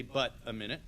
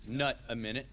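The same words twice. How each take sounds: First: "but a minute" with a clear B sound; corrected word. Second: "nut a minute" with an N sound; misprint read out. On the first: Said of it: "It should say". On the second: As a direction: read "nut" exactly as the typo, with an N. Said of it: "Instead, it says". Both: Shown as a demonstration.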